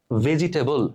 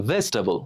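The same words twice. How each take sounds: First: ভেজিটেবল in four syllables, "ve-ji-te-bol"; common mispronunciation. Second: ভেজিটেবল shortened to "ves-ta-bol", falling; correct pronunciation. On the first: Teacher naming a word we regularly get wrong, mispronounced. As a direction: sound every vowel of ভেজিটেবল. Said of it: "উচ্চারণটা আসলে ভেজিটেবল বা ভেজিটেবলস না". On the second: Teacher answering how it should sound, correctly pronounced. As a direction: squeeze ভেজিটেবল into three syllables. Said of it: "এর উচ্চারণটা কি হবে". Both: Shown as a demonstration.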